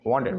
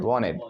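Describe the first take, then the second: First: "wanted" with a clear T; full "won-ted" for "wanted"; T pronounced. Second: "wanted" as "wah-ned"; silent T. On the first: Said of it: "हम बोलते हैं ना wanted". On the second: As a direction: say "wanted" with the T gone. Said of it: "इनमें गायब होना है". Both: Shown as a demonstration.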